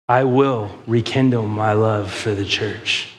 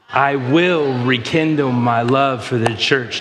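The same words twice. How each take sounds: First: It is said with ordinary, lighter emphasis. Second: It is said with stronger, more forceful emphasis.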